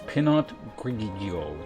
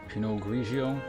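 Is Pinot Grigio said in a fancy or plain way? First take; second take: fancy; plain. First: It is said in a fancy, exaggerated way. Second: It is said in a plain, ordinary way.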